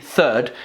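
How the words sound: It begins with a soft th sound. "we would say third for number three"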